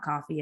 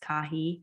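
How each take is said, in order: First: The name sounds like the word coffee. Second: The name is said as Cahi, without an f. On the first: The speaker calls it wrong. "A lot of people say coffee. It's not coffee" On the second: The speaker calls it right. "it's Cahi"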